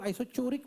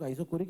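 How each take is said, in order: First: The consonant after 'iso' is a ch sound. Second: The consonant after 'iso' is a hard k. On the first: Some people say it this way. "कई लोग आइसोचोरिक बोलते हैं" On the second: Most people say it this way. "ज्यादातर लोग आइसोकोरिक बोलते हैं"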